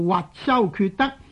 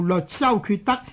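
First: The first syllable sounds like jyut, with Y. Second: The first syllable sounds like leot, with L. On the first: The speaker calls it right. "正確嘅读法呢读做" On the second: The speaker calls it wrong. "一般人读做"

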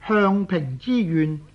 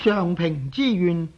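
First: The first syllable is said like 向. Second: The first syllable is said like 上. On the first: The speaker calls it wrong. "亦有些人呢每每将上平之愿呢读做向平之愿" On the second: The speaker calls it right. "在姓氏上来讲呢就要读做上"

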